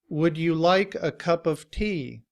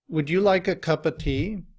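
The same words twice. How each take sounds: First: Cup of is said fully with a v sound. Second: Cup of is reduced to cuppa without v. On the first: "In citation form" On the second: "we have cuppa, cuppa. And altogether"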